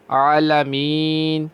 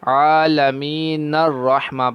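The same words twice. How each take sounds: First: عالمین stopped on a still نون, drawn out; عالمین with a waqf at the end; pause after. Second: عالمین joined straight into الرحمہ without a stop; connected reading of عالمین الرحمہ. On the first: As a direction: stop fully on عالمین before going on. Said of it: "یہاں پر ہم وقف کر دیں گے". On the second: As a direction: run the نون of عالمین into الرحمہ. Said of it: "نون کو را کے ساتھ ملا دیں". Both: Shown as a demonstration.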